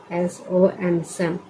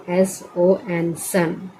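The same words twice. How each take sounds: The two takes are said the same way.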